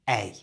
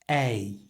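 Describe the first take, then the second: First: The vowel is said at normal speed. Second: The vowel is drawn out slowly. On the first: "And at normal speed" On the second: "Slowly it's this"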